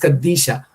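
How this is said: The word ends with an 'a' vowel. "in East Syriac it is Kadisha"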